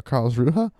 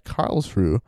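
First: Karlsruhe said as "KARLZ-roo-huh", questioning rise; three-syllable pronunciation. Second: Karlsruhe said as "KARLZ-roo", no final syllable; two-syllable pronunciation. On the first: Host offering another try at the city name, Karlsruhe as "KARLZ-roo-huh". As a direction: add a final "huh" to Karlsruhe, unsure. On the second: Host reading the magazine's place of publication, Karlsruhe ending on "roo". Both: Shown as a demonstration. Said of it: "I don't know how you say it".

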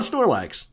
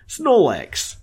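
First: Said in the usual way. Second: Snorlax in a Brooklyn accent, r dropped to "Snolax". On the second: Shown as a demonstration. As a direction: say "Snorlax" like a Brooklynite, "Snaw-lax". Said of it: "can't say it without a Brooklyn accent".

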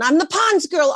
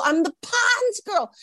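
First: High, giddy announcement; acted-out elation; excited boast. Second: Very high, stretched-out squeal; slow, acted-out elation; squealed boast. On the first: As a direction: burst out with the big news. Phoning everyone with the news. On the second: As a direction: drag out PONDS in giddy delight. Repeats the news, escalating.

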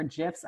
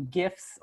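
First: "gifs" said with a soft g; soft-G pronunciation. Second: "gifs" said with a hard g; hard-G pronunciation. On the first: Offering the other pronunciation, soft-g "gifs". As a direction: start "gifs" with a j sound, like jifs. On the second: Unsure of the right pronunciation, hard-g "gifs". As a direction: start "gifs" like the g in gift. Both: Shown as a demonstration. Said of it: "not sure how to pronounce it".

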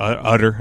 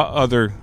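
First: "other" with a hard T for the th; slip toward "utter". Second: Said in the usual way. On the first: Real, not acted. Podcaster tripping over his words, "other" said like "utter". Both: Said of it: "I almost said utter".

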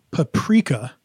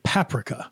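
First: Paprika stressed on the middle, pa-PREE-ka; usual paprika stress. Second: Paprika stressed on the front, PAP-rika; childhood paprika pronunciation. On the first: Host giving the usual word for contrast, pa-PREE-ka. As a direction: say paprika as puh-PREE-kuh. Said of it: "a very weird specific one". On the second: Host showing how he grew up saying it, PAP-rika. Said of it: "I grew up saying paprika". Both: Shown as a demonstration.

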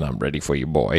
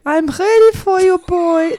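First: Lightly voiced man, dropped lower; a hint of a man's voice. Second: Put-on high, loud German-accented woman; hammed-up German accent, pitched way up. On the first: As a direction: say it in a slightly lowered manly voice. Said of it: "it was a man's voice going". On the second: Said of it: "say it in a German accent".

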